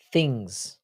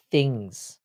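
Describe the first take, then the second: First: Things as fings, th turned to f; dropped th. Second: Things with a crisp th, thhings; clear th. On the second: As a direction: sound the th in Things properly. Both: Shown as a demonstration. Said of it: "the way we say".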